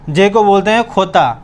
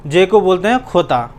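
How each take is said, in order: Both takes have the same delivery.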